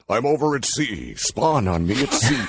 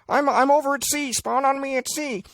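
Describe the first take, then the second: First: A big, booming voice like a trailer announcer. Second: A thin, small voice like a game headset. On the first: The speaker calls it wrong. "You don't want the guy who's doing that going" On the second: The speaker calls it right. "the sound of the guy in game going"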